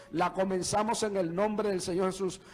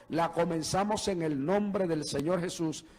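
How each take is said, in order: The two takes are said the same way.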